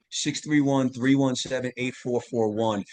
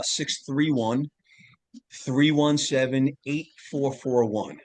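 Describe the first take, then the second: First: Said in the usual way. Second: Slow, careful number read-out; phone number read slowly for listeners; slow dictation. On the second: Shown as a demonstration. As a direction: spell out each digit so they can write it down. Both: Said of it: "you can text me".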